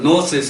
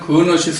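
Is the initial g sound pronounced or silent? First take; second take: silent; pronounced. First: The word begins directly with an n sound. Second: The word begins with an audible g sound. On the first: This is how it is said in English. "영어로는 노시스 이렇게 나오더래요" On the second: This is how Koreans usually say it. "우리는 그노시스 이러는데"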